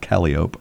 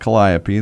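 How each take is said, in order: First: It uses the pronunciation used within the circus. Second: It uses the common everyday pronunciation of the word. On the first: This is how circus insiders say it. The speaker calls it right. "but in the circus, it's calliope" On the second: This is how the general public says it. The speaker calls it wrong. "not calliope. That's sort of the word on the street"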